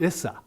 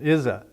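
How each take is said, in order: First: The middle consonant is a hissing S sound. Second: The middle consonant is a buzzing Z sound. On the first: The speaker calls it wrong. "there is no Z sound. So it will come out Issa" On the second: The speaker calls it right. "The Z sound"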